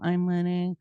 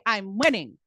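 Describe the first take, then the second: First: It is said weakly, without energy or conviction. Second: It is said strongly, with energy and conviction. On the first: The speaker does not really believe it. The speaker calls it wrong. "You can't go" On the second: The speaker truly believes it. The speaker calls it right. "with strength and passion and meaning in your voice"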